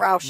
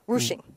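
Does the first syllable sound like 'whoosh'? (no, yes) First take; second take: no; yes. First: The first syllable does not sound like 'whoosh'. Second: The first syllable sounds like 'whoosh'. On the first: The speaker calls it wrong. "Not roushing" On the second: The speaker calls it right. "Whoosh, like a whoosh"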